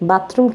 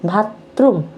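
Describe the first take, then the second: First: The word starts with a plain b sound. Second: The word starts with a breathy bh sound. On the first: "বতে হইব" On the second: "ভতে হইব ওই ছাগলে কয় ভাতরুম"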